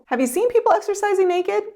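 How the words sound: The question sounds friendly and curious. The asker wants to have a conversation. The speaker calls it right. "the second way of asking sounds more like building a conversation"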